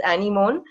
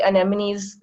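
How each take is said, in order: First: "anemone" said the way some other people pronounce it; alternative pronunciation. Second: Said in the usual way. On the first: Shown as a demonstration. Marine speaker showing an audience another way to say it, variant pronunciation of "anemone". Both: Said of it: "Some people pronounce it as".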